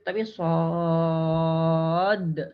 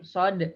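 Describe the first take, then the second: First: The vowel is held long. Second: The vowel is kept short. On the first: The speaker calls it right. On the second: The speaker calls it wrong. "membacanya pendek"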